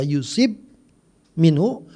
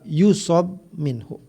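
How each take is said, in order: First: The vowel after the s sound is i. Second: The vowel after the s sound is a. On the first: "wa kasriha, dan kasrah" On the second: "dengan memberikan fathah pada huruf shad"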